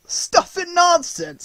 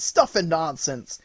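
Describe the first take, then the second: First: Put-on very high, very slow drawn-out old man's exclamation; crying out. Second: Slow, settling down into a gruff scoff; scoffing repeat. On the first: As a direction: scoff at the whole affair, hammed up. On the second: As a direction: repeat it calmer, still dismissive. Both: A narrator's reading. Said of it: "he cried out".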